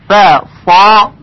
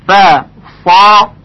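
Both takes have the same delivery.

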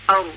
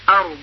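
First: The word ends without the final consonant. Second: The word ends with a clear final consonant. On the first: "الان همزه و را رو بدون زاد تلفظ میکنیم" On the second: "حالا با زاد ارض"

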